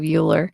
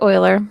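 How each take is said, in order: First: The name is said rhyming with Bueller. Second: The name is said not rhyming with Bueller. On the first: The speaker calls it wrong. "Bueller. That's what I always think of when I think of Euler" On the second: The speaker calls it right. "but it's actually Euler"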